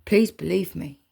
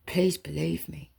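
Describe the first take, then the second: First: Said in the usual way. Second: Soft pleading whisper; whispered plea. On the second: Real, not acted. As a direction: breathe the plea, barely voiced.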